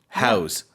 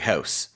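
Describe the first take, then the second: First: The word ends with a z sound. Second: The word ends with an s sound. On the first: It is a verb meaning to give a place to live. "It's more like we're using a Z" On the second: It is a noun naming a building. "when we talk the the noun, we would say house"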